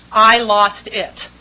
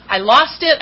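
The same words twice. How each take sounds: First: "I lost it" drawn out very slowly; slow repetition. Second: Said in the usual way. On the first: Real, not acted. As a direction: let "I lost it" land slowly, word by word.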